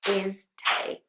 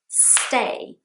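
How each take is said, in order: First: A vowel is added before the s. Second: It is said as one syllable. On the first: The speaker calls it wrong. "Another classic mistake is that I will hear Brazilians saying is te" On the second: The speaker calls it right. "stay is just one syllable"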